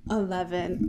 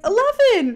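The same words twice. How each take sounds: First: Low, subdued retold answer; a mild, defeated murmur; weak reluctant admission. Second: High, loud mock disbelief; hammed-up astonishment, pitched way up; incredulous echo. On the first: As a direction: give it up softly, as if compelled. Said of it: "He's so weak right now". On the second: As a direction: repeat it back as a loud, stunned question. Klaus retold, incredulous at answer.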